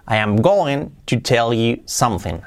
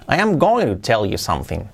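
First: Slow, careful English line; slow model sentence. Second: Said in the usual way. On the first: Shown as a demonstration. Teacher modelling going to sentence, slow and careful. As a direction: read it slowly for learners. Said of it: "model sentence read slowly". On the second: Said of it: "repeat at normal pace".

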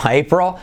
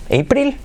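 First: "April" as ei-prul, with a dark final L; pronunciación correcta. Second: "April" as ei-pril, high and rising; pronunciación incorrecta. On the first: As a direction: correct "April" to a falling ei-prol. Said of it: "No, April". («April» corregido, «éiprol», con ele oscura) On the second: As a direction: query a wrong "April" ending in pril. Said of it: "¿He escuchado April?". («April» mal dicho, «éipril», agudo y ascendente) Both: Shown as a demonstration.

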